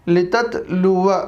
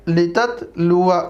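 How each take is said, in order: The two takes are said the same way.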